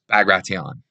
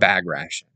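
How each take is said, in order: First: It is pronounced differently from the English spelling. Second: It is pronounced as the English spelling suggests. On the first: The speaker calls it right. "It's Bagration" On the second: The speaker calls it wrong. "It's not Bagration. Bagration is how it's spelled"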